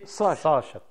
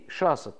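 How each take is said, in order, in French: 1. Elle se prononce selon la forme arabe classique. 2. Elle se prononce selon la forme dialectale locale. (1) "Mais en vérité" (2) "déformé dans notre dialecte"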